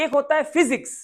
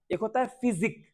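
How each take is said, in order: First: फिजिक्स said louder and higher, final s clear; physics with the s. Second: फिजिक with no final s sound; physique without s. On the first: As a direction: stress the ending of फिजिक्स, ks sounded. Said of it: "इसका spelling ही ऐसा है". (फिजिक्स, अंत में 'क्स' ज़ोर से) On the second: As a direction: say फिजिक ending on k, no s. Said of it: "एस हटा दो". (फिजिक, बिना 'स' के) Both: Shown as a demonstration.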